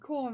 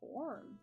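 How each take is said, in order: First: It is said in a normal voice. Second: It is said in a deep, growling voice.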